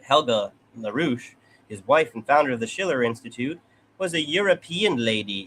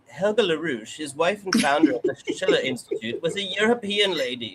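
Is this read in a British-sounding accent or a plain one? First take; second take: plain; British. First: It is read in the speaker's ordinary accent. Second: It is read in a put-on posh British accent.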